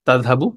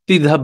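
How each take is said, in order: First: It starts with ta and ends in u. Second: It starts with ti and drops the ending. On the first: "এটা তাযহাবু" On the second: "ওরা তিযহাব বানিয়ে ফেলেছে"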